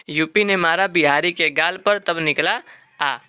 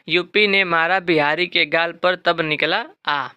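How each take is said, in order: First: Said in the usual way. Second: Slow, deliberate memory rhyme; slow mnemonic recital. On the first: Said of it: "ठीक है ना". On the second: Shown as a demonstration. Teacher slowly giving students the population mnemonic. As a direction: dictate the trick word by word. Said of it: "इसका trick भी है".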